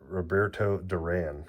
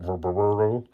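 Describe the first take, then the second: First: Said in the usual way. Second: Fix the name and land each syllable of Roberto; careful correction. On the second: Real, not acted. Correcting himself on the legend's name, careful Roberto. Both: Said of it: "Sorry, Robert".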